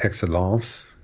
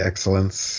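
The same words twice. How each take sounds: First: The final nasal vowel is further back. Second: The final nasal vowel is further forward. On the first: The speaker calls it right. "excellence is further back in the nose" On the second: The speaker calls it wrong. "they might say excellence"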